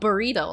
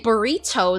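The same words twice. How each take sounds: First: The middle consonant is a soft D-like sound. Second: The middle consonant is a crisp T sound. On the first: "They just say like burrito" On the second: "there's supposed to be a T, not a D ... no one really says it like that. Like they don't say burrito"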